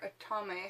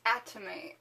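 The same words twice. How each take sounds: First: "atame" with the middle syllable stressed; alternative pronunciation. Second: "atame" with the first syllable stressed; first pronunciation variant. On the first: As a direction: say "atame" as uh-TAH-may. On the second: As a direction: say "atame" as AT-uh-may. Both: Shown as a demonstration. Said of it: "however you'd like to say it".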